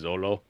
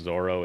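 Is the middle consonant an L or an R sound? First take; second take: L; R. First: The middle consonant is an L sound. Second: The middle consonant is an R sound. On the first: The speaker calls it wrong. "there is no L in Japanese, so it can't be Zolo" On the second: The speaker calls it right. "when they pronounce Zoro as Zolo"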